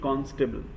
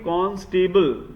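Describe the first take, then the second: First: The ending is soft and reduced, not highlighted. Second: The ending is said fully like the word stable. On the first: The speaker calls it right. "It should be constable" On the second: The speaker calls it wrong. "that will be awkward"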